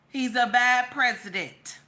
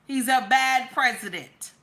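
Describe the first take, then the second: No difference in how they are said.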